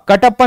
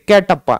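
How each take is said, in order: First: The first vowel sounds like 'a' in 'cut'. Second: The first vowel sounds like 'e' in 'bet'. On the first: The speaker calls it wrong. "कटप्पा नहीं भाई" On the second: The speaker calls it right.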